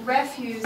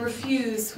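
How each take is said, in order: First: "refuse" stressed on the first syllable, REF-use. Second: "refuse" stressed on the second syllable, re-FUSE. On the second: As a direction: say "refuse" as the verb meaning decline, re-FUSE. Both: Shown as a demonstration. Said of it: "the stress on the word differentiates".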